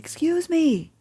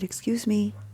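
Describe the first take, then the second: First: It is said loudly. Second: It is said quietly.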